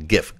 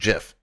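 First: It starts with a hard g sound. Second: It starts with a soft j sound. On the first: The speaker calls it right. "GIF, graphic, not graphic" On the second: The speaker calls it wrong. "It's not GIF"

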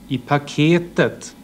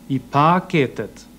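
First: The accent falls on the third syllable. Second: The accent falls on the second syllable. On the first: The speaker calls it right. "Här ser man att det är den tredje stavelsen där melodin förändras och där sitter accenten" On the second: The speaker calls it wrong. "jag kan härma en viss brytning. Till exempel så här"

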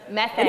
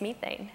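First: It is said in an American accent. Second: It is said in a British accent.

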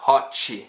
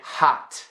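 First: The T becomes 'ch' with an added vowel. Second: The final T is released with a puff. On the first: "It's not hot-chi, something like that" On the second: "very strong puff of air for a T"

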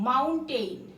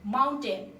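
First: The last syllable sounds like 'tain'. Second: The last syllable sounds like 'ten'. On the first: The speaker calls it wrong. "এটাকে আমরা অনেকে উচ্চারণ করি মাউন্টেইন, কিন্তু আসলে এটার উচ্চারণ মাউন্টেইন না" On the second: The speaker calls it right. "আসলে এটার উচ্চারণ ... মাউন্টেন"

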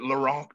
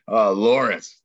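First: The name has a European-sounding pronunciation. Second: The name has a plain English pronunciation. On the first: The name sounds exotic, like a supervillain's. The speaker calls it wrong. "Is it Lorenc? Did I say that right?" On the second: The name sounds ordinary and unexciting. The speaker calls it right. "that was less exciting. Less European"

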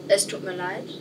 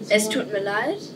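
First: It is spoken at a softer volume. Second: It is spoken at a louder volume. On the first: "Lautstärke ungefähr" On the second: "Vielleicht ein bisschen lauter"

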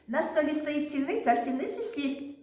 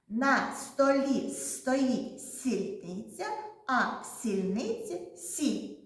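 First: The sentence is spoken very quickly. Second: The sentence is spoken slowly. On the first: "А тепер швидко, швидко, швидко" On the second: "спочатку повільно скажемо"

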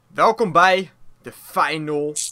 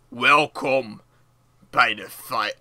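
First: It is said in a normal speaking voice. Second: It is said in a heavy, deep voice. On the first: The speaker calls it wrong. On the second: The speaker calls it right.

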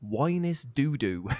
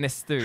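First: The double D is said as a d sound. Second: The double D is said as a th sound. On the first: "somebody pronounced it as Winus Doodoo" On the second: "it's apparently it's meant to be Innisthu"

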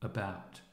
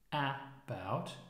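First: The first vowel is a relaxed central sound. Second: The first vowel is a full, non-central sound. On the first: The speaker calls it right. "it is a central vowel sound" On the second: The speaker calls it wrong. "Not about"

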